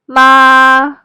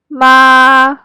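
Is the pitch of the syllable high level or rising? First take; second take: high level; high level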